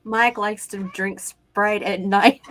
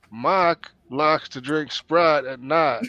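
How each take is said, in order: First: Slow, deliberate attempt at the phrase; slow careful try. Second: Slow Texas drawl with "Mike" said as "Mahk"; Texas accent. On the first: Shown as a demonstration. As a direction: work through each word slowly. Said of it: "all you have to do is say". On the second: Retold or imitated. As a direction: stretch it out like a Texan, "Sprite" as "Sprahd". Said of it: "if they're from Texas".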